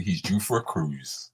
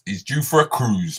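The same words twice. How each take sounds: First: Softer and lower, a bit slower, as a stock phrase; quoting a saying. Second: Said in the usual way. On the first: Shown as a demonstration. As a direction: tuck it away like a well-known saying. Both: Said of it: "as they say".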